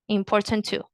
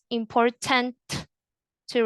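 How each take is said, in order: First: The T at the end of 'important' is silent. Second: The T at the end of 'important' is pronounced. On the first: The speaker calls it right. "that sounds better" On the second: The speaker calls it wrong. "you don't say"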